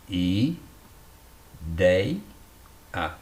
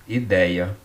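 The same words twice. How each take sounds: First: "i, dei, a" with long gaps between syllables; each of "i, dei, a" said separately. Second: Said in the usual way. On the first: Shown as a demonstration. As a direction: sound out ideia as i... dei... a. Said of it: "na penúltima sílaba". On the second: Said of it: "ditongo aberto tá aqui".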